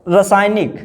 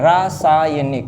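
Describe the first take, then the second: First: रासायनिक with short first ra, ra-SAAY-nik; wrong form. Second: रासायनिक slowly with long RAA; correct form. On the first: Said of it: "ये पूछा एक भी जा चुका है". (रासायनिक का पहला र छोटा) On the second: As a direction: draw out raa-saa-ya-nik in रासायनिक. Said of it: "रासायनिक होता है". (रासायनिक में रा लंबा, धीरे) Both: Shown as a demonstration.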